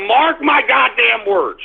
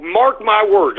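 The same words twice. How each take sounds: First: Slow, each word of "Mark my goddamn words" pressed hard; emphatic warning. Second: Said in the usual way. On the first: Real, not acted. Vlogger warning viewers the market will collapse, slow emphatic. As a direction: lean on "goddamn" and drag it out.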